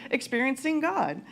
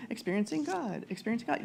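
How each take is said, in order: First: Said in the usual way. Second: Trailing, softer echo of experiencing God; fading refrain. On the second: Shown as a demonstration. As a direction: repeat it softer each time.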